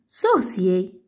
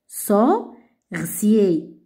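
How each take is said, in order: First: The word is said faster, as one unit. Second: The word is said slowly, syllable by syllable.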